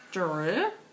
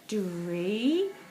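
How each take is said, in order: First: The word ends with a consonant y sound. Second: The word ends with a long ee sound. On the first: "let's see if it's the Y pronunciation" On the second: "see if it's the E pronunciation"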